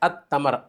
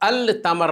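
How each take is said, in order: First: The L blends into a doubled T sound. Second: The L is clearly pronounced before T. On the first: The speaker calls it right. "तो इसको पढ़ेंगे अत्तमर" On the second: The speaker calls it wrong. "अल तमर नहीं पढ़ेंगे, ... ये गलती होगी"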